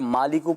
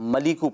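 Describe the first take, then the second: First: The first vowel is long, maa. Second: The first vowel is short, ma. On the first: The speaker calls it wrong. "अगर मालिकू पढ़ेंगे तो खड़ा ज़बर हो जाए" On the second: The speaker calls it right. "खड़ा ज़बर नहीं है बल्कि ज़बर है, तो या मलिकू पढ़ना है"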